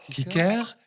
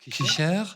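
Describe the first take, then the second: First: The middle consonant is a hard k sound. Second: The middle consonant is a breathy ch sound. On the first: This is the older form of the word. "En ancien allemand, Cicère était prononcé Kicker" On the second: This is the later form of the word. "le deuxième K a pris la forme d'un double H prononcé Ch"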